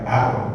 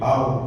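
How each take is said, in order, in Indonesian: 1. Bunyi r diucapkan ringan dan tipis. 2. Bunyi r diucapkan berat dan tebal. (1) "bukan ar" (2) "tapi ar. Tafkhim"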